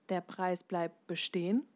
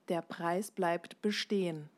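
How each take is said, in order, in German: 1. Die Tonhöhe steigt am Ende. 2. Die Tonhöhe fällt am Ende.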